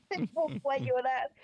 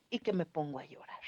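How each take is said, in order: First: Higher and louder as tears come through; words pushed out as the voice breaks; real tears rising while telling how she cried; starting to cry for real. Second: Said in the usual way. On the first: Real, not acted. Breaks down retelling goodbye.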